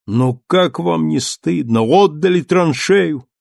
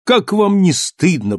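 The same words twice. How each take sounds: First: Slow, shaming reproach; reproachful. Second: Higher, insistent reproach; reproachful repeat. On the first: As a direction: scold the soldiers slowly. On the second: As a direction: press the shame home again. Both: Acted. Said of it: "повторил он".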